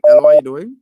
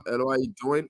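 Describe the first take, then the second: First: Loud call into a bad phone line; loud hello. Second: Said in the usual way. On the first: Real, not acted. Host calling loudly down a weak line. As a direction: raise the voice to reach the caller. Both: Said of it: "host repeats greeting on a bad line".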